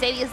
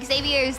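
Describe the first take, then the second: First: The name is said in a plain, ordinary way. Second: The name is said in a fancier, showier way. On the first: "the more correct normie sounding one" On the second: "the pot, extra plus pronunciation"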